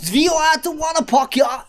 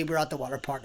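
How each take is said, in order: First: High, shouted mock German accent; camp German accent. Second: Said in the usual way. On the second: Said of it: "How do you say".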